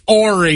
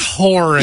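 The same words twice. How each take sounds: First: The word starts without an H sound. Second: The word starts with an H sound. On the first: The speaker calls it right. "it's Horry" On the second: The speaker calls it wrong. "not Horry"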